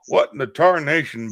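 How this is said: A put-on, drawling Texan cartoon voice. "I heard Hank Hill"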